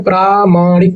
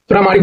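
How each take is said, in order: First: प्रामाणिक slowly, long प्रा and long मा; syllable by syllable. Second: Said in the usual way. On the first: Shown as a demonstration. Teacher correcting a spelling, प्रामाणिक slowly in syllables. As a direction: stretch both long vowels in प्रामाणिक. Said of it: "प्रामाणिक होता है". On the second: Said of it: "प्रामाणिक नहीं होता है".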